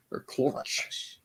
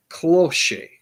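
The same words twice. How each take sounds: First: "cloche" as one soft syllable, KLOHSH; tentative pronunciation. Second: "cloche" said in two syllables, as KLOH-shay; unsure pronunciation. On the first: Host still unsure of the hat name, softly offering "cloche" as klohsh. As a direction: quietly try "cloche" with a silent final E, ending on SH. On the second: Host guessing at an unfamiliar hat name, "cloche" as kloh-SHAY or KLOH-shay. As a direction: say "cloche" with an added AY ending. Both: Shown as a demonstration. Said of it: "don't even know how to pronounce this".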